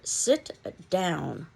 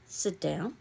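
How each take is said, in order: First: It is said forcefully, like an exclamation. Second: It is said flatly, falling like a statement. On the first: It is an emphatic command. "an exclamation point" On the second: It is a plain instruction. "a period"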